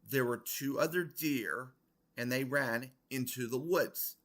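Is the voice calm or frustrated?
calm. It is said in a calm, normal voice.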